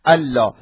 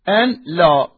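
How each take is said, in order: First: The n merges into the l sound. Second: The n is kept before the l. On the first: This is how it is read aloud in recitation. "بالقراءة بل نقراها مدغمة ألا" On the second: The words are separated to analyse their grammar. "عندما نريد نعربها هكذا نعربها أن لا"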